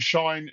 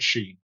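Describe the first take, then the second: First: The name has the vowel of 'shine'. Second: The name has the vowel of 'seen'. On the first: The speaker calls it right. "similarly to shine in some Germanic and Estonian context" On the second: The speaker calls it wrong. "but not Sheen"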